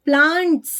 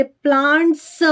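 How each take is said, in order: First: प्लांट्स ending in a bare hissed "sss"; no vowel after the s in प्लांट्स; clean final s. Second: प्लांट्स broken into "plaant-suh"; added "uh" after s. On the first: Teacher showing how we read it, प्लांट्स with pure final "sss". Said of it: "हम इसको पढ़ेंगे". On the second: Teacher showing the mistaken reading, प्लांट्स as "plaant-suh". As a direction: end प्लांट्स on a full "suh" syllable. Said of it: "प्लांट्स नहीं बोला हमने". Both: Shown as a demonstration.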